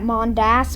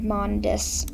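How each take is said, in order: First: The second syllable sounds like 'das'. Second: The second syllable sounds like 'dis'. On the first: This is the speaker's usual pronunciation. "I would normally pronounce that Mondas" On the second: This is the pronunciation chosen for the videos. "just kind of want to pronounce it that for the videos"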